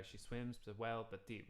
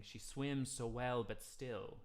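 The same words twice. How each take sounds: First: Last word cut short on the beat; cut-off ending demo; chopped off. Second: Slow, still carried over the beat; sustained word; held through. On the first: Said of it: "We sort of chop off the word". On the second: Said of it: "we don't stop the word". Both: Shown as a demonstration.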